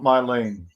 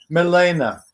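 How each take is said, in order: First: The name ends without a final vowel. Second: The name ends with an added final vowel. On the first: The speaker calls it wrong. "not Mylene" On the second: The speaker calls it right. "pronounced properly"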